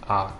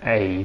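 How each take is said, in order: First: The vowel sounds like 'ah' in 'dad'. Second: The vowel sounds like 'ay' in 'day'. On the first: This is the Japanese way of saying it. The speaker calls it right. "They say A. ... like dad. Dad? Like ah?" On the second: This is the English way of saying it. The speaker calls it wrong. "the Japanese don't say A"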